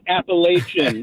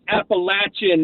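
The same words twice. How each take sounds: First: The third A is a long vowel. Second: The third A is a short vowel. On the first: The speaker calls it wrong. "not a long A" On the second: The speaker calls it right. "the third A is a short A"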